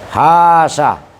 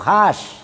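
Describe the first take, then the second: First: The word ends on a short vowel after sh. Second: The word ends on a bare sh consonant. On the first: "hadful alifis tsaniyati, itu membuang alif yang kedua... ma'a baqail ula" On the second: "Bi sukun sin, dengan dibaca sukun sinnya"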